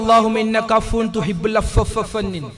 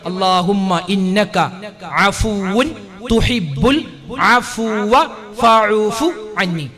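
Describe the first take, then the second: First: The words are run together and partly dropped. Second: Every word is pronounced clearly and completely. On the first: The speaker calls it wrong. "ഇങ്ങനെ അങ്ങോട്ട് ഒരു ഒപ്പിച്ച് പറയല ... അങ്ങനെയല്ല" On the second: The speaker calls it right. "കൃത്യമായി"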